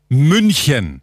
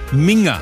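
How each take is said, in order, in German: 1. Der mittlere Konsonant ist ein ch-Laut. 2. Der mittlere Konsonant ist ein ng-Laut. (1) "ich betone, München" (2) "Kein Mensch, kein Münchner vor allem sagt Minger"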